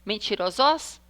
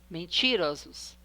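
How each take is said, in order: First: The stress is on the last syllable. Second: The stress is on the second-to-last syllable. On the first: The speaker calls it wrong. "vamos falar a última mais forte" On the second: The speaker calls it right. "Uró é penúltima. Então, ela é paroxítona"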